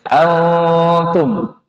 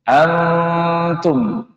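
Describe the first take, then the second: Both takes have the same delivery.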